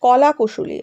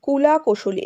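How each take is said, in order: First: "কলা" with an open o in the first syllable; corrected pronunciation. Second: "কুলা" with an u in the first syllable; mispronounced word. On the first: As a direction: say "কলা" with kaw, not ku. ("কলা", প্রথম দলে অ-ধ্বনি) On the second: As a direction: say "কুলা" with ku, a slip for "কলা". ("কুলা", প্রথম দলে ভুল করে উ-কার) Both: Real, not acted. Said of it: "আমি একটু ভুল বললাম".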